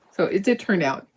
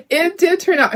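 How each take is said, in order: First: Said in the usual way. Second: Delighted the project worked; real relieved laugh on it did turn out; laughing with relief. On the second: Real, not acted. Laughing with relief after the reveal.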